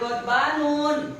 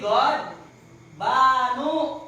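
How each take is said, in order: First: The word ends with an added n sound. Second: The word ends on a plain u vowel. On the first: The speaker calls it wrong. "Jangan Godbanun" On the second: The speaker calls it right. "tapi God Banu"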